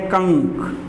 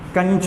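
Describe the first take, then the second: First: The word ends with a 'k' sound. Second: The word ends with a 'ch' sound. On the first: The speaker calls it right. "इसको पढ़ते हैं कंक" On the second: The speaker calls it wrong. "कंच नहीं पढ़ेंगे"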